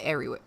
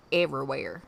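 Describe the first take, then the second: First: Said in the usual way. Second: "Everywhere" with a Southern twang; country-accented "Everywhere". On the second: Shown as a demonstration. Word repeated in Southern accent.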